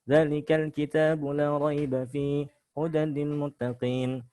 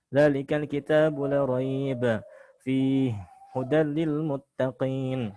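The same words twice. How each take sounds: First: It pauses only once, after fihi. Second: It pauses twice, after raiba and fihi.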